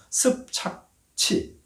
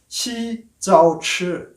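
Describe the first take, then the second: First: The name is pronounced the Korean way. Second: The name is pronounced the Mandarin way. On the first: "한국말로 읽으면 굉장히 어렵습니다" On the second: "시자오치 이렇게 되는데"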